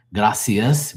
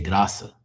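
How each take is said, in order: First: "Gracias" as grah-see-us, last s sounded; stressed final s. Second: "Graça" as grah-suh, ending open; no final s. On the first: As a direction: spell out all syllables of "Gracias" up to the s. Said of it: "We don't say". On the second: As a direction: say "Graça" in two syllables, dropping the last s. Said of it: "we say". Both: Shown as a demonstration.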